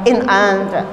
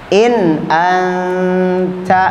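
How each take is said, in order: First: It is said in a sharp, snapping way. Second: It is said in a calm, gentle way. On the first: The speaker calls it wrong. "jangan dibentak" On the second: The speaker calls it right. "Jadi tenang bacanya"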